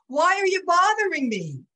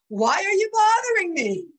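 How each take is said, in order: First: High, loud Brooklyn rabbi imitation; emphatic Brooklyn accent. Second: High, loud mock accusation; accusing, as misheard. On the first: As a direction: protest emphatically like a Brooklyn New Yorker. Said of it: "he said very emphatically with that Brooklyn accent". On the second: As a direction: imitate an irritated outburst, pitched right up. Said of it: "But all my husband heard was".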